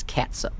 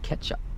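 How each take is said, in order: First: The word begins with the sound of 'cat'. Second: The word begins with the sound of 'ketch'. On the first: The speaker calls it right. "like a cat" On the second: The speaker calls it wrong. "I hear it pronounced all the time wrong"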